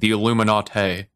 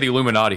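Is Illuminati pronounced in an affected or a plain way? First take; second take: affected; plain. First: The word is pronounced in an affected, overdone way. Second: The word is pronounced in an ordinary, plain way. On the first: The speaker calls it wrong. "He's like" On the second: The speaker calls it right. "He doesn't say the Illuminati"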